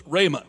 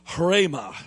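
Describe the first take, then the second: First: "rhema" with a plain r, rey-muh, no h; "rhema" in an easy southern drawl, no aspiration. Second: "rhema" with a breathy h before the r, hrey-muh; "rhema" as hrey-muh, aspirated start; Greek pronunciation. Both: Shown as a demonstration. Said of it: "But I don't say it like that 'cause I don't speak Greek".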